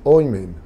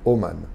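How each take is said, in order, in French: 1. Les voyelles sont oi puis e. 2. Les voyelles sont o puis a. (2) "Les hum, Thémanites, ils prononcent pareil"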